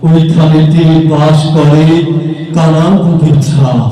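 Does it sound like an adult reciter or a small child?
adult reciter. It is recited like a skilled adult performer.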